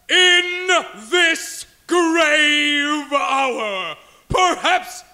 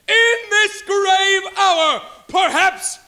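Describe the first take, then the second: First: It is said in a grave, somber tone. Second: It is said in a lighter, less solemn tone.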